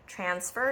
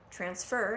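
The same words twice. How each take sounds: First: The stress is on the first syllable. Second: The stress is on the second syllable. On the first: It is used as a noun. "transfer is the noun" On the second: It is used as a verb. "Transfer is the verb"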